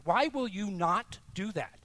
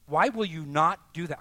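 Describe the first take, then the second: First: Insistent but eased; pressing repeat. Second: "Why" punched and louder; pressing, loud question; louder challenge. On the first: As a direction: ask it again, knowingly. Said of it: "I know why". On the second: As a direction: demand it of the room. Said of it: "Why won't you do that?". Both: Acted.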